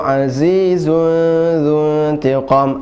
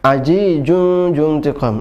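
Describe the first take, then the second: First: The consonants are said with a buzzing z sound. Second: The consonants are said with a j sound. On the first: The speaker calls it right. "zai zai kemudian dzuntiqu za" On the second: The speaker calls it wrong. "ada juga menjadi jim"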